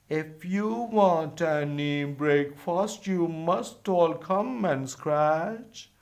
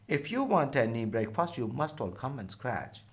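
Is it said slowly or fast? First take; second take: slowly; fast. First: It is said slowly. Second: It is said fast.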